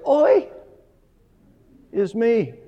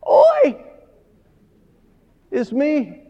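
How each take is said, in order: First: "Oi" ऊँचे स्वर में, खिंचा हुआ; Hebrew oi. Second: "Oi" को बहुत ऊँचा, रोती आवाज़ में खींचो; a very high wailing "Oi", then a plain "is me"; wailed oi. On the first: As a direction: say "Oi" high and drawn out, then "is me" plain. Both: Shown as a demonstration. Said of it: "Hebrew literally is".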